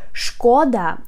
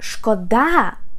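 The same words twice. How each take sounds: First: The stress is on the first syllable. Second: The stress is on the second syllable. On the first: It means damage or harm. "if you put the stress on the first syllable" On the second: It means pity or sorry. "when you put the stress on the second syllable"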